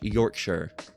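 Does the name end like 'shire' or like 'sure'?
sure. The ending sounds like 'sure'. This is how it is said in England. "It's Yorkshire"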